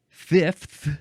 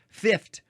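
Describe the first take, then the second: First: The word ends with an f and th sound. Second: The word ends with an f and t sound. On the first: "with an f and a th" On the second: "F I F T"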